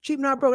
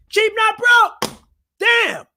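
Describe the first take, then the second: First: Said in the usual way. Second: Slow, high, loud drawn-out slogan; the channel name yelled like a battle cry; shouted catchphrase. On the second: Real, not acted. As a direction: stretch and holler the motto.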